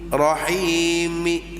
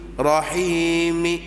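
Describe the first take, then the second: No difference in how they are said.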